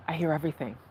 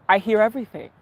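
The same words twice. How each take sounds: First: Softer, lower repeat; quiet. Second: Said in the usual way. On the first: Shown as a demonstration. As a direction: let it drop to a murmur. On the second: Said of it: "repeated quieter".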